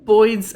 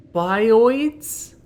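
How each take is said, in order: First: Put-on "boids" as one syllable, BOYDZ, louder; birds in oi accent. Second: "bioids" said BY-oyds, louder; pronounced as in bio. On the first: Player offering the other reading, "boids" as accented birds. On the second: Player wondering about a game creature's name, "bioids" as BY-oyds. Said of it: "as in bio". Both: Shown as a demonstration.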